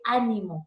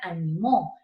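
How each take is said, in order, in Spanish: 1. El acento está en la primera sílaba. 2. El acento está en la última sílaba. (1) "una esdrújula" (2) "se volvió una aguda"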